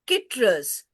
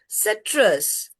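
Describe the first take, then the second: First: The word begins with a hard k sound. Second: The word begins with a soft s sound. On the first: The speaker calls it wrong. "It cannot use its sound. It is not citrus" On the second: The speaker calls it right. "C is taking its name"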